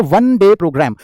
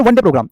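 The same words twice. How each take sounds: First: वन day programme word by word, वन held as "wun"; demonstrated pronunciation. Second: Said in the usual way. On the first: Shown as a demonstration. Teacher showing how it is spoken, वन day programme carefully separated. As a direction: draw out the opening w-sound of वन in वन day programme. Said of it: "इस तरीके से बोलेंगे". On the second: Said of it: "जब आप इसको बोल करके बताएंगे".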